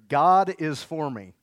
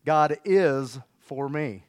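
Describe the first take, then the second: First: Slow, loud, every word drawn out; slow call-out. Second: Drawn out and louder, weight on is; slow declaration. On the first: Pastor leading the congregation in a slow, loud chant. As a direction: lead the church line loud and slow. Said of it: "So say this with me". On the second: Pastor modelling the line for the church, slow and loud. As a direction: pull each word long and firm. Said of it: "Say it like this". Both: Shown as a demonstration.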